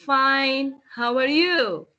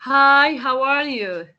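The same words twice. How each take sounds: First: Reply and bounce the question back, stress on "you"; reply tune. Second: Bright opening greeting, hi lifted; first greeting tune. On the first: Teacher demos how the reply sounds different. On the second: Teacher demos the first greeting's tune. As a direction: greet them cheerfully, lifting Hi. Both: Shown as a demonstration. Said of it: "you see the intonation here, it's not the same".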